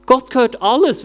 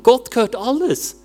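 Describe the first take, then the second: First: "alles" punched louder with a rising tune; stress on alles. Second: Gott hit hard, falling at the end; stress on Gott. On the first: Preacher punching "alles" to the church, louder and rising. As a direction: drive "alles" home, rising. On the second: Preacher stressing "Gott" to the congregation, falling tune. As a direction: lean on "Gott", then let "gehört alles" fall. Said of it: "Gott ist nicht arm". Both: Shown as a demonstration.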